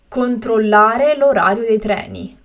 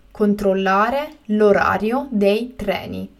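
First: Said in the usual way. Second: Slow and carefully spaced; slow, clear repetition. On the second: Shown as a demonstration. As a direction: say it again slowly for learners. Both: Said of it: "teacher repeats the word twice".

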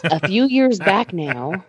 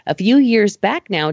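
First: Slow storyteller opening; hushed creepy legend telling. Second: Said in the usual way. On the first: Acted. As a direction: draw it out like a campfire tale. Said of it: "gather round, kids, I'll tell you a story". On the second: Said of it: "gather round, kids".

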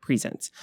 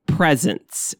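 First: "Presents" as pri-ZENTS, stress on the second syllable; verb pronunciation. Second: "presents" as PREZ-ents, stress on the first syllable; gift pronunciation. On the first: Host answering a co-host's pronunciation question, "Presents" said pri-ZENTS. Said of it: "Is it presents or present?". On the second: Host joking that it's a gift, "presents" said PREZ-ents. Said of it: "It's a present for you". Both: Shown as a demonstration.

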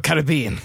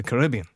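First: "Caribbean" with stress on BE; alternative pronunciation. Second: "Caribbean" with stress on RIB; alternative pronunciation. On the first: Host offers the other form, "Caribbean" stressed on BE. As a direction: say "Caribbean" as ka-rib-BEE-un. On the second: Host names the film, "Caribbean" stressed on RIB. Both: Shown as a demonstration. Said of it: "Or Caribbean".

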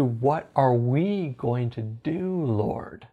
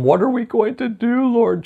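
First: Slow, low, hushed question to God; shifted, trusting attitude. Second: High, anxious mock plea; worried whine, pitched up; complaining attitude. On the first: Retold or imitated. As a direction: ask it softly, settled and unhurried. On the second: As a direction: imitate a fretful complaint to God. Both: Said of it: "shifted his attitude from".

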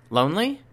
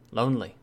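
First: "Lonely?" rising high in disbelief; surprised question. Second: "Lonely." falling flat and final; flat statement. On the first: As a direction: ask "Lonely?" with a sharp upward lift. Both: A narrator's reading. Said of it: "The answer surprised me".

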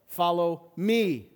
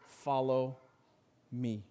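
First: "me" drawn out slow and loud; "Follow me" with a big, stretched "me"; stress on "me". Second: Said in the usual way. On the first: Shown as a demonstration. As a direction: lean hard and long on "me". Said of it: "look at it with the emphasis on each syllable". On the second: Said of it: "The two simple words that Jesus offers".

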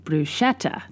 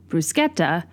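First: "bruschetta" with sh, bru-SHET-ta; "bruschetta" pointedly American, soft sh; waiter's bruschetta. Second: "bruschetta" with a hard k, brus-KET-ta; "bruschetta" the Italian way with a k. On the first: Retold or imitated. Waiter correcting her order, "bruschetta" with sh. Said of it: "he's intentionally saying". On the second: Shown as a demonstration. Ordering from a waiter, "bruschetta" with a hard k. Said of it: "I am correct".

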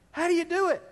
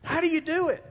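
First: Quicker, laughing through the question; laughing repeat. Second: Said in the usual way. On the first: Acted. Pastor repeating the question to his church with a laugh. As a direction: toss it back with an amused laugh.

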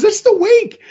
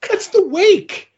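First: Much higher, "the" stressed, rising at the end; goofy triumphant answer. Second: Much higher, slow, dragging out the; slow goofy counting. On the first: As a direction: hit "the" in "That's the wake" and lift the end like a question. Same goofy counter voice. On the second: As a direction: stretch "that's the wake" slowly in a high put-on voice. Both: Retold or imitated.

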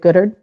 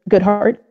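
First: Goodhart run together as "Goodard", no clear h or t; slurred name. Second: Goodhart with a clear h and a final t; careful correction. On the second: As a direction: Goodhart said slowly as "Good-hart". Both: Shown as a demonstration.

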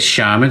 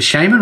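First: "shaman" with first vowel as in "shame"; alternative pronunciation. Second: "shaman" with an open "ah" first vowel; alternative pronunciation. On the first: Host asking which pronunciation, "shaman" said SHAY-mun. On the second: Host offering second option, "shaman" said SHAH-mun. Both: Shown as a demonstration. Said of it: "is it shaman or shaman".

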